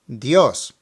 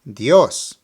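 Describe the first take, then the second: First: The emphasis falls on the O sound. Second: The same.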